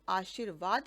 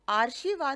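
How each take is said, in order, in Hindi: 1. r ध्वनि sh ध्वनि के बाद आती है। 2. r ध्वनि sh ध्वनि से पहले आती है। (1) "र का उच्चारण शा के बाद आता है" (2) "ना होकर"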